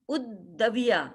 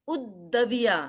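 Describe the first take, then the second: The two takes are said the same way.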